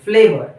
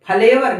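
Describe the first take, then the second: First: The consonants join with no vowel between them. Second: A vowel is heard between the joined consonants. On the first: The speaker calls it right. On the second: The speaker calls it wrong.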